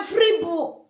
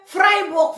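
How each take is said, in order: First: Freiburg with "ee" in the first syllable; Alemannic pronunciation of Freiburg. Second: Said in the usual way. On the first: Shown as a demonstration. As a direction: say Freiburg as "FREE-book". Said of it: "If they want to say Freiburg". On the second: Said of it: "they will say Freiburg".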